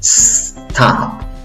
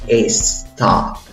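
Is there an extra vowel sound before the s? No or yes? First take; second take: no; yes. First: It starts directly with a blown s sound. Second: An extra e vowel comes before the s. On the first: The speaker calls it right. "comienza soplando" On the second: The speaker calls it wrong. "no le agregues una E antes de la S. No digas stop"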